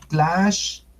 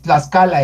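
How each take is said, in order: First: Tlaxcalan with x as sh and a final n, stretched out; correct Nahuatl pronunciation. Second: Tlaxcala with x as s, "tlas-CA-la"; ordinary "Tlaxcala" with s and open ending; everyday Spanish pronunciation. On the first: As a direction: draw "Tlaxcalan" out as tlash, ca, lan. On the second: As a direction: say "Tlaxcala" quickly with a plain s. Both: Shown as a demonstration. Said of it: "ese se pronuncia Tlaxcalan".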